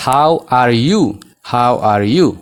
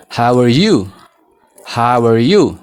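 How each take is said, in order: First: HOW ARE YOU with each word said fully and separately; slow, careful "How are you", keeping the A in "are"; local full pronunciation. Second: "How are you" with the A of "are" dropped, like "how-er you"; native-style linking. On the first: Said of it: "akka keenyatti". (sagalee guutuu, akka keenyatti) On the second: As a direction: run "How are" together as "how-er", then "you". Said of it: "Qubee A kanan dubbisnu". (A keessaa baasuun, akka faranjootaatti) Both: Shown as a demonstration.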